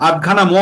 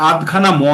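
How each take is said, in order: No difference in how they are said.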